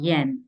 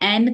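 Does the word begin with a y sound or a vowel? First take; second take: y sound; vowel. First: The word begins with a clear y sound. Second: The word begins directly with a vowel. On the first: The speaker calls it right. "प्रॉपर य करके आपको sound निकालना है" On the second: The speaker calls it wrong. "एन करके नहीं निकालना है"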